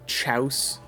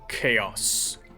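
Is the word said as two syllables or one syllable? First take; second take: one syllable; two syllables. First: It is said as one syllable rhyming with house. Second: It is said as two syllables, kay-oss. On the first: The speaker calls it wrong. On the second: The speaker calls it right.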